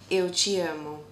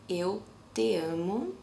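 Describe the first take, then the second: First: The word 'te' starts with a ch sound. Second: The word 'te' starts with a plain t sound. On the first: "It has a chi sound to it" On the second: "the correct um, pronunciation is eu te amo"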